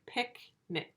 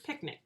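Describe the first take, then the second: First: Picnic in two separate soft beats, "pick, nick"; two parts. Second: Said in the usual way. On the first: Shown as a demonstration. Teacher showing the word's two parts, split apart. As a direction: pause between the halves of Picnic. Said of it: "two parts". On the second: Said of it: "that makes the word picnic".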